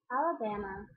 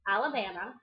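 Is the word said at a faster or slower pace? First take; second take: slower; faster. First: The word is said at a slower pace. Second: The word is said at a faster pace. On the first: "I'll do it a little bit slower" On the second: "I hope I didn't say this too fast"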